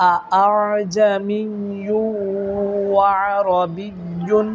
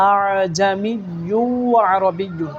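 First: আজামিয়্যু with the second hamza softened, drawn out slowly; very slow model recitation. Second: Slow and clear for the students; slow model recitation. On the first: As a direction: recite আরবিয়্যুন slowly and clearly for students to copy. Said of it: "অনেকবার practice করবেন". (দ্বিতীয় হামজা নরম করে ধীরে পড়া) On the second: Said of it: "দ্বিতীয় হামজাকে নরম করে এইভাবে পড়তে হবে". (দ্বিতীয় হামজা নরম করে পড়া) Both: Shown as a demonstration.

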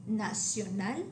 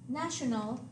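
First: Nacional as nah-syo-NAL; Spanish nacional, stress on final NAL; Spanish pronunciation. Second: National as NASH-un-ul; English national with a sh sound; English pronunciation. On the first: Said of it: "stress on the last syllable". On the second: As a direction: say national the English way, front-stressed. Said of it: "The English word". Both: Shown as a demonstration.

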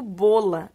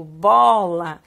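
First: "bola" with a closed O, like "bôla"; quick "bola", rounded closed o sound. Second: "bola" with a wide open O, like "bóla"; emphatic "bola", open "aw" vowel. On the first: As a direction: say "bola" wrongly with the O of "bolo". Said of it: "eu não digo bola". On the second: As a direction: stretch the open O in "bola", louder. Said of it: "eu digo bola". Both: Shown as a demonstration.

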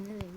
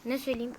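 First: Much softer falling mumble; muttered to himself. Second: Said in the usual way. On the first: Real, not acted. Vlogger wondering aloud which song to sing, softly muttered. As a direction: drop it under your breath. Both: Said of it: "ben size bir şarkı söyleyeyim".

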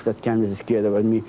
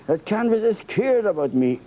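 First: Lower, mock-menacing "Oh, that canvas is scared about me"; hammed-up gloating at the canvas; mock menace. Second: Said in the usual way. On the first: Shown as a demonstration. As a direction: drop low and gloat over the word "scared". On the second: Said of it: "Oh, that canvas is scared about me".

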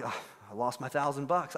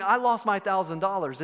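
First: Low, soft, mock-miserable sigh of defeat; mildly hammed-up gloom; dejected friend. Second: Acted matter-of-fact admission, in full voice; steady, accepting reply; composed response. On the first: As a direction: act crushed by the loss, voice sunk down. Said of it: "He's so sad". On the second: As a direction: concede the loss without falling apart. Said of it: "And your response is".

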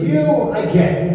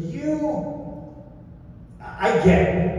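First: High, confident verdict; a quick, sure pronouncement; retold approval. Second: High, soft, drawn-out "you", then a pause; hesitant verdict, stalling after the first word; retold puzzlement. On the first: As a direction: hand down approval without hesitation. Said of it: "looks at Mickey and he goes". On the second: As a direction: size someone up doubtfully before answering. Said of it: "looks at me and he goes".

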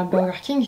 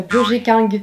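First: Said in the usual way. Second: Burger King as French "bur-jé king"; French accent. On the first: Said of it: "je dis souvent". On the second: Shown as a demonstration. Vlogger quoting her usual joke name, French accent. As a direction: read the brand name with French sounds. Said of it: "avec un accent bien français".

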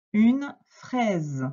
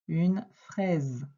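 First: Clearly presented new word, separated from its article; dictation announcement. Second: Said in the usual way. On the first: Shown as a demonstration. Teacher giving a pupil the next word, clear dictation.

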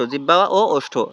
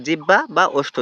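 First: Correcting, lean on ও and stretch it; ও held long as the corrected word; stress on ও. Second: Said in the usual way. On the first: Shown as a demonstration. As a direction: land the fix on ও, drawn out.

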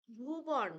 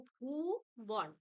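First: Said in the usual way. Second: ভূবন broken in two, a long ভূ, then বন; split into syllables. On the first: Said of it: "এই শব্দটির দল বিশ্লেষণ করলে". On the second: Shown as a demonstration. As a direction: stretch the first syllable of ভূবন, pause, then say বন. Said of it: "দল বিশ্লেষণ করলে আমরা পাবো". (ভূবন দুই দলে ভেঙে, ভূ টেনে বলা)

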